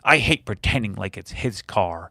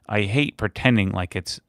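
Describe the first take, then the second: First: It is read in a put-on voice. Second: It is read in his normal voice.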